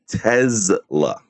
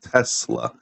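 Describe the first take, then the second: First: The middle consonant is a buzzing z sound. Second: The middle consonant is a hissing s sound. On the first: "T E Z L A" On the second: "not Tesla"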